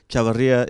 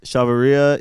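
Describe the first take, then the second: First: It is said with a Latin American Spanish accent. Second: It is said with an American English accent. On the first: "is the Latin pronunciation"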